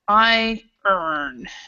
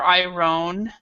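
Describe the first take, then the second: First: It sounds just like 'I earn'. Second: It does not sound like 'I earn'. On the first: The speaker calls it right. "It's I earn. So it's more like this" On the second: The speaker calls it wrong. "this word is not iron or iron"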